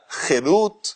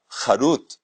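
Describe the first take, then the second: First: The first vowel is an 'e' sound. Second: The first vowel is an open 'a' sound. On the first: It means freedom. "si se la pronuncia Jerut, en vez de Harut" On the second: It means engraved. "el Creador usó esa palabra, Harut, grabado"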